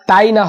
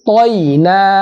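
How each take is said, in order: First: The first syllable sounds like a light 'tai'. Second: The first syllable sounds like a heavy 'toi'. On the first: The speaker calls it wrong. "তাই না হবে না" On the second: The speaker calls it right. "ত ত মোটা"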